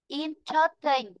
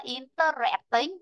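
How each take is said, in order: First: "Interesting" slowly with stress on IN, in-ter-est-ing. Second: "interesting" with stress on the third syllable, in-ter-EST-ing; the wrong way, stressing "interesting" on EST; wrong stress shown. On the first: Teacher modelling "Interesting" with stress on the first syllable. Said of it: "Chứ đừng có đọc là interesting nhá". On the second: Teacher showing the wrong stress in "interesting". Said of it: "Chứ đừng có đọc là". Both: Shown as a demonstration.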